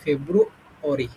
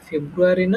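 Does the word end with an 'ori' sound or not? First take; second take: ori; not ori. First: The ending is said as 'ori'. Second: The ending is not said as 'ori'. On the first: The speaker calls it right. "এটা হচ্ছে ফেব্রুয়ারি, শেষে হলে অরি" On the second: The speaker calls it wrong. "এটা ফেব্রুয়ারি না"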